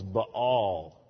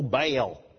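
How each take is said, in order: First: The word is said with a double vowel. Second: The word is said in a southern drawl. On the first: The speaker calls it right. "that's a double vowel. It's Baal" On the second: The speaker calls it wrong. "pronounced in good southern drawl when I was in Sunday school"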